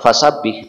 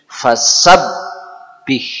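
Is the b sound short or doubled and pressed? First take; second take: short; doubled. First: The b sound is short and not pressed. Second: The b sound is doubled and pressed hard. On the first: The speaker calls it wrong. "bukan fasabbih" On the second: The speaker calls it right. "Fasab tekan, ... tapi fasabbih"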